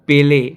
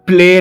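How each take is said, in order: First: A vowel separates the p from the l. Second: The p and l form one cluster, no vowel. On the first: The speaker calls it right. "ওটা পেলে" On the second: The speaker calls it wrong. "ওটা প্লে না"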